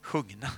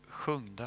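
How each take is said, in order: First: "Sjungna" said with an n, /ɧɵŋnɑ/, firmly; corrected word form. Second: "sjungda" said with a d, /ɧɵŋdɑ/, trailing down; wrong word form. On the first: Preacher corrects himself to "Sjungna" with an n, decisively. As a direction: land "Sjungna" with a clear n as the fix. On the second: Preacher gropes for the word, first saying "sjungda" with a d. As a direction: say "sjungda" tentatively with a d before the ending. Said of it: "heter det?". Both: Real, not acted.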